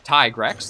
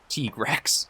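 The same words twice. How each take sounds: First: The first syllable has a long 'eye' sound. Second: The first syllable has a short 'i' sound. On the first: The speaker calls it right. "like tiger" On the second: The speaker calls it wrong. "not Tigrex"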